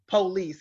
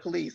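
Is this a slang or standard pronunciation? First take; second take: slang; standard. First: It is said the home slang way. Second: It is said the standard way.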